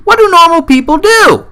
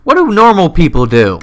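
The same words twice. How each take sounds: First: High, loud and baffled; shouted in high disbelief; bewildered shout. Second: Said in the usual way. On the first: Acted. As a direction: yell it like it makes no sense. Mock bewildered rant.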